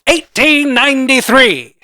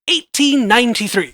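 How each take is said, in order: First: It is said in a put-on dramatic voice. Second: It is said in an ordinary speaking voice. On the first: The speaker calls it right. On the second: The speaker calls it wrong.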